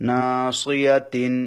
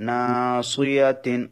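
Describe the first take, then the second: No difference in how they are said.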